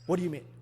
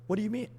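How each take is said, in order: First: It sounds warm and concerned. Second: It sounds warm and concerned.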